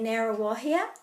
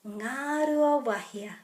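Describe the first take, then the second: First: It starts with a plain n and drops sounds. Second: It starts with ng and keeps every vowel. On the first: The speaker calls it wrong. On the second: The speaker calls it right.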